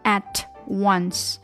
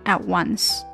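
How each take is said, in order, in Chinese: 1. t 音在 once 前面清楚地发出来。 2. t 音被省略了，两个词连在一起读。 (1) "不能特出来at once" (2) "读快了自然而然就会把这个t 忽略掉，变成at once"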